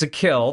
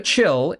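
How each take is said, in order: First: The second syllable begins with a k sound. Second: The second syllable begins with a ch sound. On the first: The speaker calls it right. "it's a kill" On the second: The speaker calls it wrong. "not a chill"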